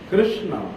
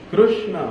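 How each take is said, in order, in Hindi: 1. शब्द घुमा-घुमाकर उच्चारित किया गया है। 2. शब्द घुमा-घुमाकर उच्चारित किया गया है।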